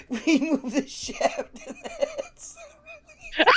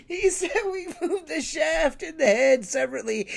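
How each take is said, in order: First: High, breaking into helpless laughter; repeating a friend's line while cracking up; laughing. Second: Slightly higher, laughter fading, getting words out; steadier, still chuckling; retelling the line to listeners, amused. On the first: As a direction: barely get it out through laughing. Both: Real, not acted. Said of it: "I can't take anything you're saying seriously".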